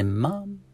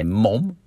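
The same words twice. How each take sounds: First: "mum" with a short "uh" vowel, pitched up; higher-pitched "mum", vowel as in "cup"; "mum" pronunciation. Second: "mom" with an open "ah" vowel; mock-American "mom". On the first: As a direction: say "mum" the British or Australian way. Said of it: "Babies say mum". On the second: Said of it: "sounds weird the way they say that". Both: Shown as a demonstration.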